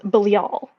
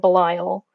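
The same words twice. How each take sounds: First: The name is said the Hebrew way. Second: The name is said the Western way. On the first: "the Hebrew pronunciation is Belial" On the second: "in the West, people say Belial"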